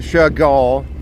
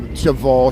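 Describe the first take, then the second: First: The middle consonant is a clear G sound. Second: The middle consonant is not a G sound. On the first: The speaker calls it right. "Chagall with a G" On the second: The speaker calls it wrong. "not Chagall"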